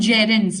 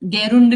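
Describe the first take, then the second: First: The word begins with a soft j sound. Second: The word begins with a hard g sound. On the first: The speaker calls it right. "ये जी को ज pronounce करोगे आप" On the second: The speaker calls it wrong. "गेरुंड नहीं बोलेगा कोई भी"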